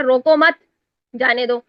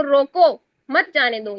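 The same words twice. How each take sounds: First: روکو مت run together, long stop, then جانے دو; pause after مت. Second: روکو on its own, then مت جانے دو as one phrase; pause after روکو. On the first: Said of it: "stop جو اٹھا کے سٹاپ کہیں اور پہ لگا". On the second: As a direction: make the stop fall straight after روکو, before مت. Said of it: "حکم دے رہی ہوں کہ اس کو روک لو". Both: Shown as a demonstration.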